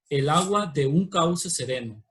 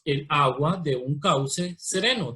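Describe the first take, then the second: First: "de un" unido en un solo golpe, verso fluido; con sinalefa. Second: "El agua de un cauce sereno" leído despacio, sílaba por sílaba; separado en sílabas. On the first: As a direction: junta "de un" en una sola sílaba. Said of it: "tenemos una sinalefa". (uniendo "de un" en un solo golpe) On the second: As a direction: marca cada sílaba del verso sin unirlas. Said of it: "aquí las separamos en sílabas". (separando cada sílaba con calma) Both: Shown as a demonstration.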